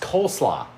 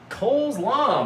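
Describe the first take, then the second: First: The stress falls on the first part, cole. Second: The stress falls on the second part, law. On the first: It names the cabbage salad. The speaker calls it right. "It's coleslaw" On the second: It sounds like the name of a law. The speaker calls it wrong. "I'm mispronouncing it"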